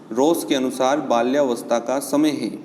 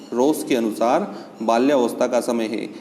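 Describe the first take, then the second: Both takes have the same delivery.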